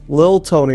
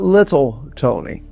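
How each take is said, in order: First: The first word has one syllable, lil. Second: The first word has two syllables, little. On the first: The speaker calls it right. "Let me pronounce it correctly. It's Lil" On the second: The speaker calls it wrong. "It's not Little Tony"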